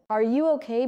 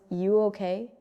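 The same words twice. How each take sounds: First: "Are you okay" with Are clearly sounded; careful, unreduced "Are you okay"; full form. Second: "You okay" with Are dropped, rising; casual short question, "You okay"; reduced form. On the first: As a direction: keep all three words. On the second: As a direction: clip it down to just "You okay". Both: Shown as a demonstration.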